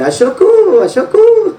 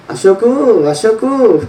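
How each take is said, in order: First: High squawking parrot cry; parrot call. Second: Lightly voiced squawking parrot; a hint of a parrot calling a name. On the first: Retold or imitated. Preacher mimicking the parrot's call to the congregation, high. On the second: Preacher imitating the pet parrot calling Ashok, lightly. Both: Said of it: "అది అరిసేది".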